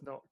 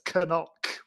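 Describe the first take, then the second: First: The initial k is silent, like English knock. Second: The initial k is sounded before the n. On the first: "we read it as knock, the English word" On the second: "they pronounce it as Canuck"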